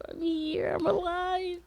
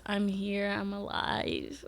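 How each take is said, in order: First: High excited declaration. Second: Said in the usual way. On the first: Acted. Vlogger announcing her return, in a high excited voice. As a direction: pitch jumps way up, sing-song.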